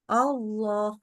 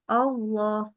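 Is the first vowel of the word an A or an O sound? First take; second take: O; O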